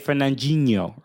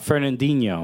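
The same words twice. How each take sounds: First: The D is said softer, almost like a G. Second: The D is said hard and clear.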